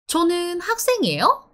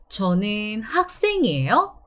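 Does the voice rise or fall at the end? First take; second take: rises; falls. First: The voice rises at the end, a question. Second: The voice falls at the end, a statement.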